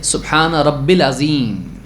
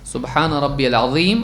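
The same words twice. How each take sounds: First: "رب العظیم" run together as rab-bil azeem; wrong RABBIL. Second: "ربی العظیم" with a long ee, RAB-BI-YAL azeem; correct RABBIYAL. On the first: Teacher mimics some people's mistake, "رب العظیم" said rabbil. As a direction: drop the "ya", saying "رب العظیم" as rabbil. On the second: Teacher models the prayer phrase for worshippers, correct "ربی العظیم" as rabbi-yal. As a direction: say "ربی العظیم" with a clear "ya" before "al". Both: Shown as a demonstration. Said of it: "یہ غلط ہے".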